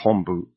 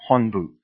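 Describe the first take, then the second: First: The first syllable ends with an M sound. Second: The first syllable ends with an N sound. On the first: The speaker calls it wrong. "Most people will pronounce this as Honbu ... H-O-M, as in Mike ... Hom with the M is not correct" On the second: The speaker calls it right. "it is really pronounced Honbu ... H-O-N, as in November ... Hon is correct"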